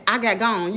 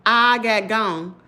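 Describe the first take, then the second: First: Said in the usual way. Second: I got gone, drawn out slowly, each word weighted; slow emphatic repeat. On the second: Retold or imitated. Telling viewers, slowly, how she fled.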